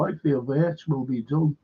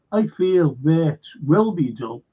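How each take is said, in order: First: Said in the usual way. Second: "I feel Wirtz will be done" drawn out slowly, each word weighed; slow mocking repeat. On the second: Repeats Daryl's claim, drawn out.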